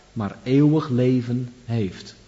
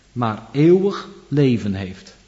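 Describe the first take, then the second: The two takes are said the same way.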